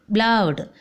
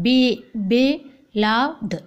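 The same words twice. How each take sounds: First: Said in the usual way. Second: Slow "beloved" with separated syllables; split into syllables. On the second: Shown as a demonstration. Teacher showing trisyllable words, slow syllable by syllable. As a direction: break "beloved" apart after the "be".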